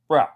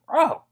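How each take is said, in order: First: It sounds annoyed and exasperated. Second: It sounds impressed and amazed. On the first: Someone is behaving badly and should stop. "if someone's doing something that's a bit out of pocket or a bit crazy" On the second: Someone did something amazing. "if someone's doing something like pretty amazing"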